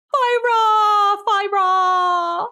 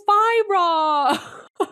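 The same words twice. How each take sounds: First: "Fire!" yelled high and loud as "fye-rah"; odd pronunciation. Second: A drawn-out, strained "Fire!" ending in "raw"; odd pronunciation. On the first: Friend mimicking the actress's strange "Fire!". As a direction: shout "Fire!" with a drawn, open "rah" ending. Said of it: "I thought she went". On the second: Friend retelling how she misheard the actress's "Fire!". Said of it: "When she goes". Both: Retold or imitated.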